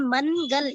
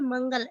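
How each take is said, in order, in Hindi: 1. "n" की आवाज़ पूरे व्यंजन की तरह बोली जाती है। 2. "n" सिर्फ़ एक नासिक्य आवाज़ है। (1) "मनगल इस तरह नहीं पढ़ रहे" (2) "मंगल ऐसा पढ़ रहे हैं"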